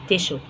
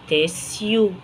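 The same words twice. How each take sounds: First: "تيشو" with a sh in the middle; sh pronunciation. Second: "تيسيو" with an s then a yoo glide; s-y pronunciation. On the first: Teacher giving how some people say it, "تيشو" with sh. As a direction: say "تيشو" as tish-oo, no separate s. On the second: Teacher showing learners one variant, "تيسيو" with s plus yoo. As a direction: say "تيسيو" as tiss-yoo, without a sh. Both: Shown as a demonstration. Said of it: "أو في ناس بتقولها تيشو".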